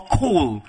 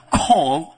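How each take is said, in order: First: "Call" with a rounded oh vowel, like coal; practised foreign pronunciation. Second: "Call" with an open aw vowel; practised foreign pronunciation. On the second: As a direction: say "Call" with the jaw dropped on an aw. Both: Shown as a demonstration. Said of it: "whichever, U K or the U S".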